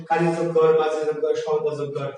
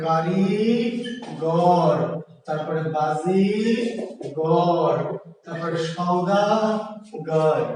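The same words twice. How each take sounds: First: Said in the usual way. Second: Slow word split. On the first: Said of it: "মাঝখান দিয়ে মোটাস করে ভেঙে ফেলবেন". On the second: Shown as a demonstration. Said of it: "ভেঙে ফেলবেন".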